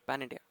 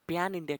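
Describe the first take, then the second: First: Pan has a plain open vowel. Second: Pan has a y-glide before the vowel. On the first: The speaker calls it right. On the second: The speaker calls it wrong.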